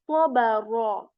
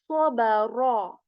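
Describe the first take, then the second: The two takes are said the same way.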